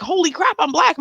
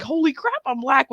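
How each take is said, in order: First: Higher, startled realization; mock shock. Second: Higher mock cartoon dad exclaiming; Peter Griffin. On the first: Girl realizing in the mirror, higher mock shock. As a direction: gasp it out in the mirror. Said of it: "I was like". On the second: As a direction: shout it like a startled cartoon dad. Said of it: "Peter Griffin Family Guy that he was like".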